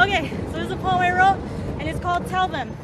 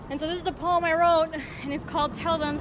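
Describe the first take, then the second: First: Said in the usual way. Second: Breathless after running; out of breath. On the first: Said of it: "I gotta catch my breath". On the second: Real, not acted. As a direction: speak while catching breath. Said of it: "Sorry, I gotta catch my breath. I ran here".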